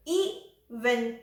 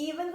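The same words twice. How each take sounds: First: "even" split as ee, pause, ven; syllable-by-syllable "even"; broken into syllables. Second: Said in the usual way. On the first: Shown as a demonstration. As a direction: pause after the long first vowel of "even". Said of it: "even को कैसे तोड़ेंगे हम?". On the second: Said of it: "कैसे तोड़ेंगे हम".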